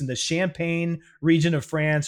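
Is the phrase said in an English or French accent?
English. It is said in a plain English accent.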